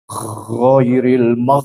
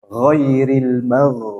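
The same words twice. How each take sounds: First: The gh is rasping and snore-like in the throat. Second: The gh flows smoothly without throat rasping. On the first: The speaker calls it wrong. "nah itu ini kurang tepat" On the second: The speaker calls it right. "Jadi dia suaranya mengalir"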